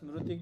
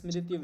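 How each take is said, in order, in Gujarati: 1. 'sm' પછીનો સ્વર 'ru' છે. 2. 'sm' પછીનો સ્વર 'ri' છે. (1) "ગુજરાતીમાં આપણે રીનું રૂ ઉચ્ચારણ કરીએ" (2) "સંસ્કૃતમાં શુદ્ધ ઉચ્ચારણ હરી છે"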